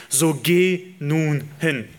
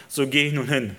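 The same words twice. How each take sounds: First: Each word drawn out and weighty; slow solemn So geh nun hin; slow command. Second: Said in the usual way. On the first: Acted. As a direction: let So geh nun hin land slowly, leaning on geh. Preacher quotes God's command.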